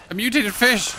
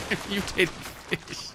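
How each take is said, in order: First: Startled yell. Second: Softer, slower amused repeat of the line; mock repeat. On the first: Real, not acted. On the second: Shown as a demonstration. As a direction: say it back slowly, laughing at yourself.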